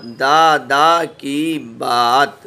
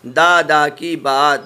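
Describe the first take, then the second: First: दादा की बात drawn out very slowly, each word held; slow reading drill. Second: Said in the usual way. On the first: Shown as a demonstration. Teacher reading the joined words slowly to pupils. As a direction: read दादा की बात slowly for the class to follow. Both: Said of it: "अब ये मिला के पढ़ा".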